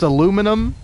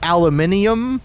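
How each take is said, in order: First: The word is said the American way. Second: The word is said the British way. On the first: The speaker calls it right. "It's aluminum" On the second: The speaker calls it wrong. "certainly not aluminium"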